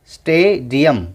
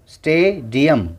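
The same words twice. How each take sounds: The two takes are said the same way.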